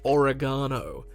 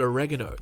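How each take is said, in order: First: It is said the Australian way. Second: It is said the American way. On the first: The speaker calls it wrong. "than oregano" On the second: The speaker calls it right. "It makes more sense to call it oregano"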